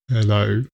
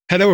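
First: The word is drawn out extremely slowly. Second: The word is said very quickly. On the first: "if it was glacial, it would be more like" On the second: "That's too fast"

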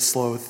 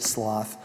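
First: It is said with a British vowel. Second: It is said with an American vowel. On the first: "I think the Brits say it sloth" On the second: "and we say it sloth"

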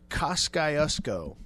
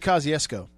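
First: Each letter of the spelling is sounded out. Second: It is said in its usual spoken form. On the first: This helps one remember how to spell it. "the pronunciation that helps with the spelling phonetically" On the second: This gives no clue to the spelling. "if you just say Kosciuszko, nobody's got a clue"

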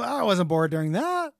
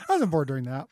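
First: It is said incredulously, a little surprised. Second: It is said plainly, without surprise.

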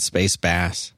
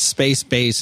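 First: Bass rhymes with mass, like the fish. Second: Bass rhymes with base, like the instrument. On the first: The name refers to a fish. The speaker calls it wrong. "not space bass. But I like the idea of a fish in space better" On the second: The name refers to the musical instrument. The speaker calls it right. "he says it's space bass"

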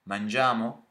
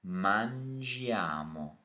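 First: The pitch rises at the end. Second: The pitch falls at the end. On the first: It asks whether we shall eat. "You just change the intonation to make it a question. So it's like" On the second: It states that we eat. "To say we eat"

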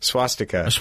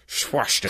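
First: It is said in an ordinary accent. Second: It is said in a put-on, slurred 'sh' accent. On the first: "most people in English using their mouths say swastika" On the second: "Unless you're Sean Connery"

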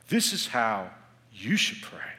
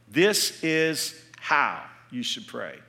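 First: The stress is on the word you. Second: The stress is on the word how.

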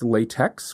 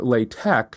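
First: The word ends with a 'ks' sound. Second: The word ends with a 'k' sound. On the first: "I have heard it pronounced LaTeX, which is how it's spelled" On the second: "And you're pronouncing it LaTeX"

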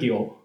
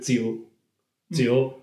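First: The word begins with a g-like consonant. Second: The word begins with a z-like consonant. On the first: This is the old round-sound reading. "如果你要强行发团音呢是酒" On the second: This is the old sharp-sound reading. "如果你要强行发尖音的话是酒"

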